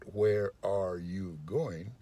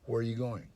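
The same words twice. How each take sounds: First: Each word is said separately and distinctly. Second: The words run together smoothly without breaks. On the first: The speaker calls it wrong. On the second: The speaker calls it right. "Put them together, and it sounds like this"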